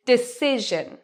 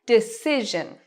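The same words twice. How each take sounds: First: Decision with the SE syllable longer and louder; stress on SE. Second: Decision, SE drawn out and louder; stress on SE. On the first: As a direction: lean on SE in Decision. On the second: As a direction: hit SE in Decision. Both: Shown as a demonstration. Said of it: "What part do I say louder and longer?".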